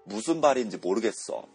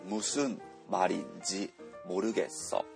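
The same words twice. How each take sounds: First: The initial m sounds come out close to b. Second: The initial m sounds are plain nasal m.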